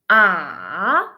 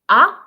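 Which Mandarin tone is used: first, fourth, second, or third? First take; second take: third; second. First: It is said with the third tone. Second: It is said with the second tone. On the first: "The third one" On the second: "and then ah"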